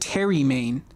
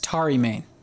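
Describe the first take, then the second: First: The name begins with a 'terry' sound. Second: The name begins with an 'atari' sound. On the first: "I've said Terry Main" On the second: "Think of a game console, Atari. ... That makes more sense"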